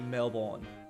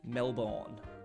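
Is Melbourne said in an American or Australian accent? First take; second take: American; American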